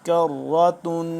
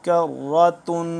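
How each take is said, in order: The two takes are said the same way.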